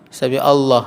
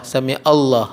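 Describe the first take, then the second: No difference in how they are said.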